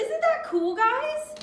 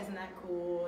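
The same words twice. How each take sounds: First: Put-on high-pitched, excited children's host; perky presenter. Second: Low, quiet run-through of a line; off-mic aside. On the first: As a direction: pitch it way up for the kids watching. Retake for the children's show. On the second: Real, not acted. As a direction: say it low and softly, as a note to yourself. Muttering a missed line to herself.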